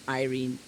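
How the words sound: The name is pronounced the Hungarian way. "And in Hungarian"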